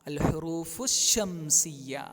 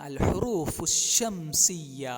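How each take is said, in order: Both takes have the same delivery.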